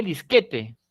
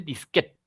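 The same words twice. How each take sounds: First: "disquete" in three syllables, dis-KE-te; full Spanish "disquete", ending in -te; disquete read as written. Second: "disquete" as dis-KET, final e silent; two-syllable "disquete", ending on a t; usual foreign-style disquete. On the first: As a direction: sound the final e of "disquete". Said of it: "nadie lee disquete". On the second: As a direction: drop the last e of "disquete". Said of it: "Se dice normalmente". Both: Shown as a demonstration.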